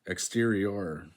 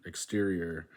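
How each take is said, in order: First: "Exterior" drawn out to a full "or"; Spanish ending. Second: Said in the usual way. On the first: Shown as a demonstration. Learner reading the Spanish word, "Exterior" with full "or" ending. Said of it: "are stressed on the last syllable". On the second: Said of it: "Spanish words that end in or".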